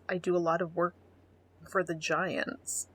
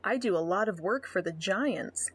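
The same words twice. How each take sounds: First: Flat mocking quote. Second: Said in the usual way. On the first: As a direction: drag out for the Giants mockingly. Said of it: "He just says". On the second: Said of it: "first reading of profile line".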